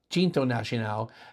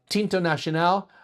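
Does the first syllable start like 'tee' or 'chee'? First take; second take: chee; tee. First: The first syllable starts with a ch sound. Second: The first syllable starts with a plain t sound. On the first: This is the proper Portuguese form of the name. "in proper Portuguese pronunciation ... almost like a cha" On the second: This is the commonly heard form of the name. "you may have also heard the name"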